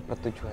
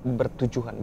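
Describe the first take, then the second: First: Pertujuan said with p; wrong word pertujuan. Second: Said in the usual way. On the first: Shown as a demonstration. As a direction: say pertujuan as the mistaken form. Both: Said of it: "bukan pertujuan".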